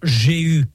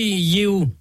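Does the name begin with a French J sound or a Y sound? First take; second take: French J; Y sound. First: The name begins with a soft French J sound. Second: The name begins with a Y sound. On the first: This is the form used in Bible translations. The speaker calls it wrong. "vous le trouverez dans les traductions de la Bible sous l'appellation Jéhu. Enfin, ça fait vraiment très bizarre" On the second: This is the original Hebrew form of the name. The speaker calls it right. "Je préfère la prononciation hébraïque à titre personnel"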